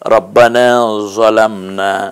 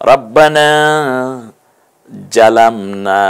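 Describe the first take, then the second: First: The second word starts with a heavy emphatic 'z'. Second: The second word starts with a 'j' sound. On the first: "জোয়া দিয়ে বলেছি" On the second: "জিম দিয়ে বলেছি"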